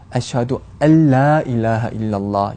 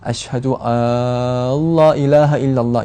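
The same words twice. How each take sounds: First: The vowel in 'alla' is kept short. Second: The vowel in 'alla' is drawn out long. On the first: The speaker calls it right. "정확한 발음은" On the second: The speaker calls it wrong. "이렇게 길게 발음하는 경우가 많이 눈에 띄는데"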